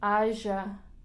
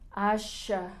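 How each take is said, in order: First: The middle consonant is a palatal 'y' sound. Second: The middle consonant is an 'sh' sound. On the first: "es el yeísmo" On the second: "o también sh"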